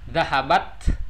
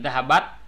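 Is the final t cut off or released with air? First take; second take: released; cut off. First: The final t ends with a puff of air. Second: The final t stops abruptly without air. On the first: The speaker calls it right. "harus ada eh, apa udara yang terbuang di akhir" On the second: The speaker calls it wrong. "Kalau seperti itu salah"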